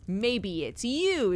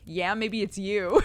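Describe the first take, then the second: First: Slow Cockney keeper snapping back at the stranger; a hint of a cheeky dig, drawn out on you; keeper's retort. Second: Slow, louder zookeeper leaning into the threat on you; a creepy keeper taunting a visitor; menacing zookeeper. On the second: Retold or imitated. Guy menaces dude at zoo.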